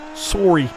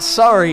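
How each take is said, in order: First: It is said in a Canadian accent. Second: It is said in a standard, non-Canadian accent. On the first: The speaker calls it right. "the Canadian version" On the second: The speaker calls it wrong. "it's not sorry"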